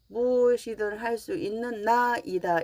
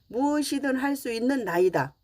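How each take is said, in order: First: A break separates 나 from 이다. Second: 나이다 is said as one word.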